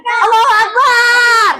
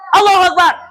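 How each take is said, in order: First: The final syllable is drawn out long. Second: The final syllable is kept short.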